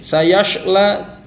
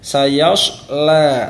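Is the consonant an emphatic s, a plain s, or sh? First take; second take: sh; emphatic s. First: The consonant is a hushing sh sound. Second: The consonant is a heavy, emphatic s sound. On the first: The speaker calls it wrong. "Jangan juga seperti huruf shin" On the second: The speaker calls it right. "Tetapi huruf shod"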